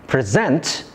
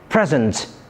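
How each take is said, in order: First: The stress is on the second syllable. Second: The stress is on the first syllable. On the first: It is a verb referring to an action. "If the stress is placed on the second syllable" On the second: It is a noun meaning a gift, or an adjective meaning happening now. "If the stress is placed on the first syllable"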